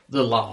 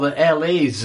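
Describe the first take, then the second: First: The name is said as one word, Lars. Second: The name is said as separate letters, L A. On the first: This is apparently the official way of saying it. "but apparently it is The Lars" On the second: This is the speaker's preferred way of saying it. "Or the LAs, as I prefer to call them that"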